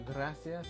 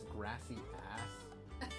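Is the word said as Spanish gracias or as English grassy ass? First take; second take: Spanish gracias; grassy ass. First: It is said with a plain Spanish pronunciation. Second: It is said like the English words grassy ass.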